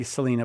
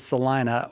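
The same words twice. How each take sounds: First: "Salina" said with an ee, suh-LEE-nuh; mispronounced Salina. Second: "Salina" with a long i, suh-LINE-uh; correct local pronunciation. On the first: Host showing caller the tempting mistake, "Salina" as suh-LEE-nuh. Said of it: "it's tempting to say Salina". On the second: Host confirming the Kansas town's name, "Salina" as suh-LINE-uh. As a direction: stress the middle of "Salina" as LINE. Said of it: "but it's Salina". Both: Shown as a demonstration.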